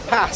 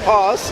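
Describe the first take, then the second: First: It is said in a northern English accent. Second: It is said in a southern English accent. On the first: "Why do northerners go and say the same word?" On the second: "Why do southerners go and say glass"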